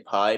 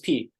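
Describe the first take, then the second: First: The name rhymes with the word 'eye'. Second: The name sounds like the letter 'P'. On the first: This is how English speakers pronounce it. "I say pie because that's how you pronounce it" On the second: This prompts questions and jokes from listeners. "it always raises questions when you say, My name is P"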